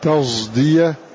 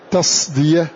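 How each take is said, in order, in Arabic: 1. يُمزج صوت الصاد بصوت الزاي. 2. الحرف صاد مفخمة خالصة. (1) "ليس بصاد ولا بزاي" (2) "لا نقول تصدية"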